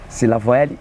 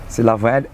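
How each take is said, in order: The two takes are said the same way.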